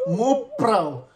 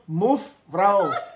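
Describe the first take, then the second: First: The middle consonant is a P sound. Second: The middle consonant is an F sound. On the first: The speaker calls it wrong. "Sunda nggak bisa ngomong F atau V, ini mah muprau" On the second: The speaker calls it right. "Padahal harus move frau"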